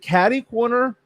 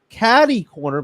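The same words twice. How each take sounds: First: The middle consonant sounds like a D. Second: The middle consonant sounds like a T. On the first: "like a D" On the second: "or a T"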